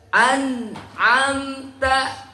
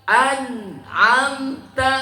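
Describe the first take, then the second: The two takes are said the same way.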